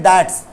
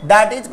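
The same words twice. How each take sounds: First: "that's" as one syllable; contracted that's. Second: Said in the usual way. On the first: Shown as a demonstration. Teacher shows the short form to students, contracted "that's". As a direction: squeeze that and is into "that's". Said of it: "That is को बोल देंगे". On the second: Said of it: "को बोल देंगे that's".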